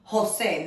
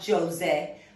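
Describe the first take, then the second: First: The name begins with an H sound. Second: The name begins with a J sound. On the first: The speaker calls it right. "The J in Spanish sounds like an H in English, so it's Jose" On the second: The speaker calls it wrong. "not Jose"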